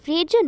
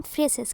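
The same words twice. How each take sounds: First: Phrase said slowly as "FRAYJ"; corrected pronunciation. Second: Phrases said as "FRAY-ses"; rejected pronunciation. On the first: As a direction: end phrase on a drawn-out j sound. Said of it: "correct pronunciation of this word". (phrase को धीरे से "फ्रेज" बोलते हुए) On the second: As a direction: use s sounds in phrases, no j. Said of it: "not phrases". (phrases को "फ्रेसेस" बोलते हुए) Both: Shown as a demonstration.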